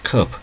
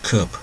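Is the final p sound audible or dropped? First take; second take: audible; audible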